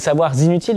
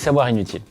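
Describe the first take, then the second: First: A z sound links the two words together. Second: The two words are said without a linking sound. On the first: The speaker calls it right. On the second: The speaker calls it wrong.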